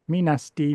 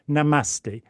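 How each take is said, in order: First: The word begins with 'me', like 'me nasty'. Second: The word begins with 'na', like 'namaste'. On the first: The speaker calls it wrong. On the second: The speaker calls it right.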